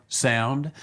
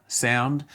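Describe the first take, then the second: Both takes have the same delivery.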